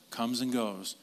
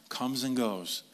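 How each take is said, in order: Both takes have the same delivery.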